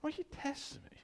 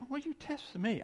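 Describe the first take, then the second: First: High, soft knowing rebuke; Jesus knowingly. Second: High half-voiced knowing rebuke; see through them calmly; Jesus knowingly. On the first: Retold or imitated. Jesus to the hypocrites, high soft knowing rebuke. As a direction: gently let them know you see it. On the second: Jesus to the hypocrites, high knowing rebuke. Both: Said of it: "He said".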